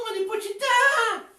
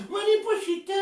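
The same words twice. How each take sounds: First: Said in the usual way. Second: Sweetly. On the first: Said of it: "Yo te digo". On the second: Shown as a demonstration. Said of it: "y lo hago dulce".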